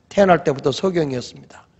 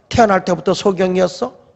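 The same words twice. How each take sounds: First: "태어날 때부터 소경이었습니다" as a plain statement; confirming answer. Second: "태어날 때부터 소경이었어" as a probing question. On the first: Parents to interrogator, "태어날 때부터 소경이었습니다", confirming answer. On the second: Interrogator to parents, "태어날 때부터 소경이었어?", questioning. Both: Retold or imitated.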